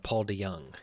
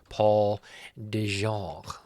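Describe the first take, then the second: First: The second syllable begins with a Y sound. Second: The second syllable begins with a J sound. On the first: The speaker calls it right. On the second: The speaker calls it wrong.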